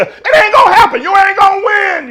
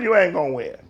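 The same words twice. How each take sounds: First: Shouted warning. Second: Quiet warning. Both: Real, not acted. Preacher repeats warning.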